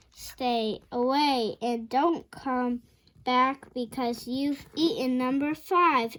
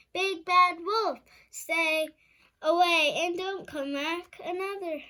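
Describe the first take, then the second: First: Slow, louder careful reread. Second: Chanted, high, loud sing-song taunt. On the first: Shown as a demonstration. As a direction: read it again slowly and clearly. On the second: A narrator's reading. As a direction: chant it at the wolf like children.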